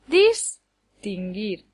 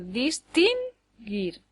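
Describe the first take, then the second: First: The stress is on the first syllable. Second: The stress is on the second syllable. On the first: "daría lugar a palabras que no existen" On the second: "daría lugar a palabras que no existen"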